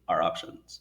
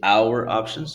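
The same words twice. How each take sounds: First: The words are pronounced softly and reduced. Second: The words are pronounced fully and strongly. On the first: The speaker calls it right. "soften the pronunciation" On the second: The speaker calls it wrong. "too strong"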